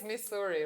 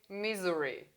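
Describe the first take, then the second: First: The word has its standard Missouri sound. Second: The word sounds like the word misery. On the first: The speaker calls it right. "but it's Missouri, right?" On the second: The speaker calls it wrong. "she always said Missouri. Like i- it's something in misery"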